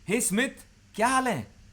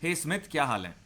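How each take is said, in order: First: It sounds warm and friendly, rising upward. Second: It sounds plain and neutral.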